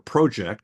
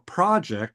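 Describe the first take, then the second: First: It is said the Canadian way. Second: It is said the non-Canadian way.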